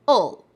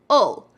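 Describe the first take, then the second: The two takes are said the same way.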